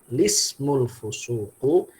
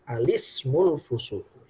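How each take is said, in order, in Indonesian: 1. Langsung dimulai dari bunyi l. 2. Dimulai dengan a pendek sebelum l. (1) "bisa kita baca langsung" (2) "bisa juga kita baca dengan alismul fusuku"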